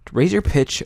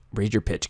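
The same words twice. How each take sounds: First: Higher-pitched demonstration; slightly squeakier tip-giving voice; raised pitch. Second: Said in the usual way. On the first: Shown as a demonstration. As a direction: lift the voice up as you say it.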